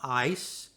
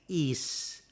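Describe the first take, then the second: First: The vowel sounds like the word ice. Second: The vowel is a long ee sound. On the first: The speaker calls it wrong. "It's not ice" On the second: The speaker calls it right. "it's is"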